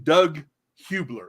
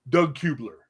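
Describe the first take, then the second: First: The name is said at an ordinary, careful pace. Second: The name is said quickly, with the sounds running together.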